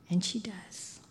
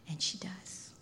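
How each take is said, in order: First: Said in the usual way. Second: A hushed, breathy revelation; whispered. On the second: Shown as a demonstration. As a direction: whisper it in awe.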